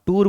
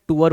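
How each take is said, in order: First: Said in the usual way. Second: "टूर" said the Hindi way; Hindi pronunciation. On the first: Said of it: "आप टूर बोलते हो". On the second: Shown as a demonstration. Teacher showing students how tour is said in Hindi, Hindi pronunciation. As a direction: pronounce "टूर" as a Hindi speaker would. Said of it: "Hindi में टूर होता है".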